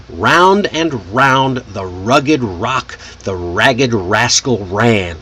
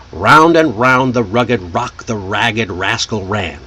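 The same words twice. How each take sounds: First: Tongue twister taken very slowly, each R drawn out; slow, exaggerated Rs. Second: Tongue twister run through fluently at natural speed; smoother, faster. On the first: Teacher demonstrating a fun tongue twister, slow and exaggerated. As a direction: say it slowly, leaning into every R. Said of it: "Say it slowly at first, exaggerating each R". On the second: Teacher repeating the tongue twister for students, smooth and quicker. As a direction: roll smoothly through the line like a native speaker. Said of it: "but smoother, faster, just like a native speaker".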